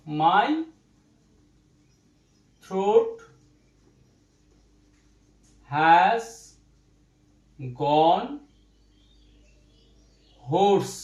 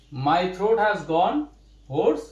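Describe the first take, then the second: First: Each word set apart by long pauses; word-by-word dictation to students. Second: Very slow, the words run together; slow full sentence for students; slow full-sentence read. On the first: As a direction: dictate it one word at a time, slowly. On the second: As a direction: read the whole line slowly in one go. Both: Shown as a demonstration.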